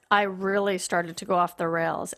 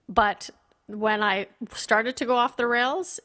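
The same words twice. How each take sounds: First: "really" leaned on, the rest even; stress on really. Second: Said in the usual way. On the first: Shown as a demonstration. Guest telling the host about her relapse, stressing "really". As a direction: push the word "really" to show how far she slid.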